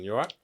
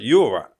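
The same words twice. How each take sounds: First: It is asked lightly, as a passing greeting. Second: It is asked slowly, with real concern. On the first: It is just a routine greeting. "That's a normal conversation" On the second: The asker genuinely wants to know how the other is. "it's just my tone of voice"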